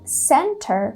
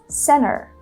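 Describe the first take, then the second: First: Both the T and the R are pronounced. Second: The T after N is dropped completely. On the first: "which is going to be a little bit more British" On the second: "she drops the T sound completely"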